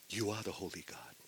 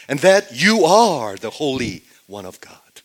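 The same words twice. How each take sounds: First: Hushed reverence. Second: Loud, ringing declaration of faith; emphatic proclamation. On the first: Peter confessing to Jesus in hushed reverence. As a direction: say it quietly, as if in awe. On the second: Peter confessing who Jesus is, loudly proclaimed. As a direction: proclaim it forcefully, leaning on the key words. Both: Acted.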